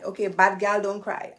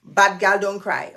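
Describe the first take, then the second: First: Said in the usual way. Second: Louder punchy mantra to stop the tears; firm self-pep talk. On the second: Real, not acted. Host steeling herself not to cry, louder chant. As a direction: declare it to stay strong. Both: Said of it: "I'm not gonna cry".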